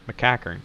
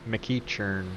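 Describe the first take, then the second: First: The middle of the name sounds like 'cack'. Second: The middle of the name sounds like 'each'. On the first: The speaker calls it right. "I'm going to say that" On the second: The speaker calls it wrong. "I just see each and I just want to pronounce it like that"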